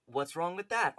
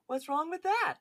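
First: Said in the usual way. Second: Very high, louder put-on impression; Jeff. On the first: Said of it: "Oh, I'm sorry. He goes". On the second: Podcaster redoes the quote in character, high-pitched impression. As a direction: pitch it way up into a cartoonish mock voice. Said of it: "any, uh, quote you do by Jeff".

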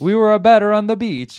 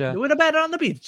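First: High, loud mock Italian accent. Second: Put-on high-pitched copycat Italian accent. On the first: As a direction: belt it out in a hammed-up Italian accent. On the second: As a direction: echo it in a playful fake Italian accent. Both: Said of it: "talk in an Italian accent".

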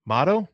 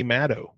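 First: Matto as MAH-toh, questioning rise; alternative pronunciation. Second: Matto with a short A as in "cat"; first pronunciation attempt. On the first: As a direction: try Matto with an open AH, unsure. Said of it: "We'll go with Matto". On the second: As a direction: say Matto as MAT-oh, stated. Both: Shown as a demonstration.

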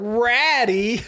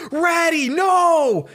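First: High, laughing incredulous question; mocking echo. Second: Very high, loud mock-anguished scream; panicked cry. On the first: Bullies hearing Ben's pet name for Rattata, derisive echo. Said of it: "they hear that, and they're like". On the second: Ben seeing Snorlax fall on his Rattata, panicked scream. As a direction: cry out for your pet in exaggerated panic. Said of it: "Ben immediately panics".

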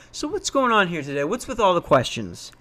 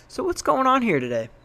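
First: A little higher, a touch of a probing investigator; detective mode. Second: Higher, a light cop-interrogator tone; a hint of a homicide detective catching them out; detective mode. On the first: Retold or imitated. Pressing the visitors about their questions, mild detective tone. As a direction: lightly play the cop who has caught them out. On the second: Confronting the suspicious visitors, lightly played detective. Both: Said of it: "drops it into detective mode".

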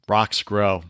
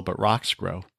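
First: "Rocks grow" with "Rocks" leaned on, falling at the end; stress on rocks. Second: "but rocks grow" repeated much softer, "rocks" still leaned on; quiet echo. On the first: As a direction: hit "Rocks" firmly, then let "grow" drop. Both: Shown as a demonstration. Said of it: "Nothing else grows in the soil".

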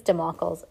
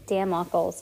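First: Democles with a weak "duh" at the start; "Democles", opening on an unstressed schwa; first syllable reduced. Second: Democles with "dam" at the start; "Democles", opening on a clear short "a"; full first vowel. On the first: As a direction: say Democles as duh-MOCK-uhlz. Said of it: "No, it's not. I think it's". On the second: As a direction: say Democles as DAM-mock-uhlz. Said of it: "how do you say it?". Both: Shown as a demonstration.

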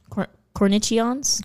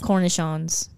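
First: "cornichons" sounded out slowly with a CH, "cor-nitchy-ons", rising; unsure pronunciation. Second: Said in the usual way. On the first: Shown as a demonstration. Trying out the word's pronunciation.

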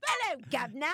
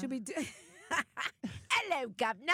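First: Put-on British accent with rising hello; a bad British accent, high and a bit loud. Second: A lightly put-on British accent; chirpy British greeting, tongue in cheek; a hint of British accent, pitched up. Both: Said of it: "I'm still working on my accents".

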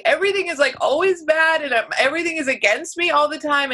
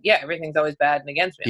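First: High, mocking angsty young self; mock angsty twenty-something; whiny twenties self. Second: Lower, fast, shrugging resignation; flat-out resigned shrug; resigned thirties self. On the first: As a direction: imitate your dramatic younger self. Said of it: "in my twenties I was like". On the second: Retold or imitated. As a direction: toss it off like it's old news. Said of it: "now in the thirties, it's like".

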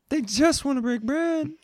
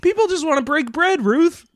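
First: Much higher mocking echo; high squeaky echo. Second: High pleading. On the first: Echoing in a squeaky voice. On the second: Pretend. Mock pleading for bread.

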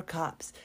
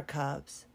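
First: "cups" slipped into "cops"; slip of the tongue. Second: Said in the usual way. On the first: Real, not acted. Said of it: "probably need the cups after this".

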